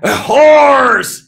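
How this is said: It is said in a monster voice.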